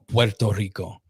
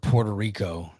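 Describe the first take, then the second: First: It is said with a Spanish pronunciation. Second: It is said with an American English pronunciation. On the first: "is how you pronounce it" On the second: "that's you know like the Americanized or English pronunciation"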